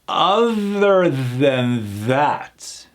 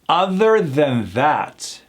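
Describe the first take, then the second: First: The phrase is said slowly. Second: The phrase is said faster. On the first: "let's try this slow with the hard T H mechanics" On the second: "a little faster"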